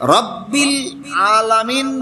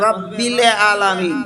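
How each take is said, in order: First: Alamin begins with a tight throat sound. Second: Alamin begins with a plain open vowel. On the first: The speaker calls it right. "রব্বিল আলামিন বলবে না" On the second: The speaker calls it wrong. "বলবে রব্বিল আলামিন"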